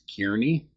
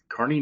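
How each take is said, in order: First: The first syllable sounds like 'keer'. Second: The first syllable sounds like 'car'. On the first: The speaker calls it wrong. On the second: The speaker calls it right.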